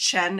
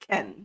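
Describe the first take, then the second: First: The syllable starts with a 'ch' sound. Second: The syllable starts with a 'k' sound. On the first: The speaker calls it wrong. "it's not pronounced Chen" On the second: The speaker calls it right. "It's usually um Ken"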